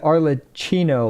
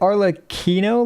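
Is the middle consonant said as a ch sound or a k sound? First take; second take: ch; k. First: The middle consonant is a ch sound. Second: The middle consonant is a hard k sound. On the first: "like a C H" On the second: "like a K"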